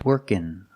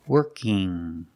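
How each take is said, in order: First: It ends in a plain n sound. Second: It ends in a nasal ng sound. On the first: "Or I can make the N sound" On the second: "where I make the sound in my nose"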